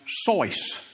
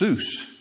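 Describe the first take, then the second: First: The vowel sounds like 'oy' in voice. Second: The vowel sounds like 'oo' in goose. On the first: This is the original way the name is said. The speaker calls it right. "It's correctly pronounced Sois" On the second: This is the common way people say the name. The speaker calls it wrong. "It's not really pronounced Seuss"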